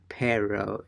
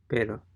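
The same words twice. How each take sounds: First: It is said with an English-style R. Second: It is said with a Spanish-style R. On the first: The speaker calls it wrong. "it's not pero" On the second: The speaker calls it right. "it is pero"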